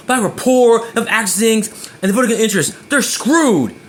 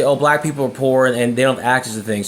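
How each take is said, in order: First: Cold dismissive version; harsh blunt tone. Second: Sweetly concerned; said nicely. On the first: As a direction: spit it out with scorn. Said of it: "If I say it like that". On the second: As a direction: say it like you care. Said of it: "imagine saying that nice". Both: Shown as a demonstration.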